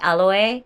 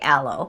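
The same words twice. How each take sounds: First: It is said with a Japanese pronunciation. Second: It is said with an English pronunciation. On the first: "In Japanese, they say aloe" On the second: "I guess we say aloe"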